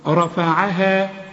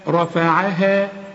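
No difference in how they are said.

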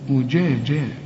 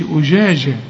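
First: The jeem sounds as a clear 'j' sound. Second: The jeem sounds blurred toward a 'sh' sound. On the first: The speaker calls it right. "لا أجاجا" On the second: The speaker calls it wrong. "ما قلش أجاجا"

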